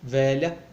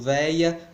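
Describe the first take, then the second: First: The middle consonant is a palatal 'lh' sound. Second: The middle consonant is a 'y' glide. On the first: This is the urban way of speaking. "pela urbana típica" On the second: This is the rural way of speaking. "pronúncia rural típica"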